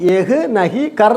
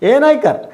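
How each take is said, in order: First: Each word is said separately and in full. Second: The words run together into a short form. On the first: The speaker calls it wrong. "എഴുതുമ്പോൾ എഹ് നഹി കർ എന്ന് എഴുതും. അതുപോലെ വായിക്കരുത്" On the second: The speaker calls it right. "ഇങ്ങനെ ചെയ്യില്ലേ"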